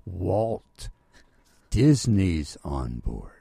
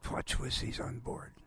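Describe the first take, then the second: First: Imitating someone spelling it out slowly and loudly; each word separate, falling low at the end; very careful. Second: Retold unclear murmur, softer; hushed, slurred imitation of a warning. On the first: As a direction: make it unmistakable, word by word. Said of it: "he said very carefully". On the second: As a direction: pass on a message so it can't be made out. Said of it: "tapped me on the back".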